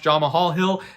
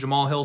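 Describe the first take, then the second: First: The h sound in the first name is pronounced. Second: The h sound in the first name is dropped. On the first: The speaker calls it wrong. "I keep pronouncing the H in there" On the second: The speaker calls it right. "he calls him Jamal Hill"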